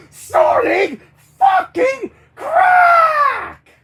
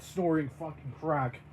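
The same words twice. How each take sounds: First: Very high, slow full-force scream; screamed outburst. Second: Said in the usual way. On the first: Acted. Character rants about taking drugs, drawn-out screaming. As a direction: scream each word, drawing out the last.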